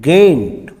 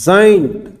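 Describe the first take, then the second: First: The word starts with a hard G sound. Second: The word starts with a J sound. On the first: The speaker calls it wrong. "गेंट नहीं बोलेंगे" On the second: The speaker calls it right. "क्या बोलेंगे इसको"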